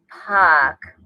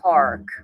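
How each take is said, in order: First: The R is dropped, New Jersey style. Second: The R is pronounced, standard style.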